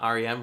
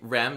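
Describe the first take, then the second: First: It is spelled out as three separate letters. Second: It is said as one word, rem. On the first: The speaker calls it wrong. "not R E M" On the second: The speaker calls it right. "you say R E M"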